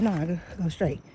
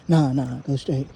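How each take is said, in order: First: A slightly lowered, quiet retold order; soft, lightly deepened voice for giving directions; deep voice. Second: Low, put-on deep voice giving an order; retold command in a mock deep voice. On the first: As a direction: quote yourself a touch deeper and softer. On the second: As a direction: drop your pitch to tell the driver off. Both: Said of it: "I said in my deep voice".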